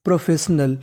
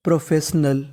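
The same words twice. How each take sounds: The two takes are said the same way.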